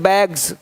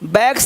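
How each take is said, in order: First: The word ends with a z sound. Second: The word ends with an s sound. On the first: The speaker calls it right. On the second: The speaker calls it wrong.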